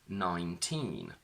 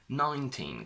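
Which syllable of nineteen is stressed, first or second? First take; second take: second; first. First: The stress is on the second syllable. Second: The stress is on the first syllable. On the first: The number stands on its own. "when they're on their own, the stress is on teen" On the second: The number is followed by a noun. "the stress shifts to the front"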